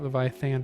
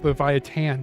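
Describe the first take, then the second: First: The name is pronounced with English-style sounds. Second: The name is pronounced with Spanish-style sounds. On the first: The speaker calls it wrong. "not Leviathan" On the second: The speaker calls it right. "It's Leviathan, ... because apparently it's Spanish"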